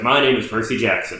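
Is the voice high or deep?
deep. It is said in a deeper, broken voice.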